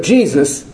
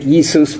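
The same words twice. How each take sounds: First: Said in the usual way. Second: Jesus said the Greek way, kee-soos; Jesus pronounced as Greek Iesous; Greek pronunciation. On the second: Shown as a demonstration. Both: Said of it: "I like the Greek".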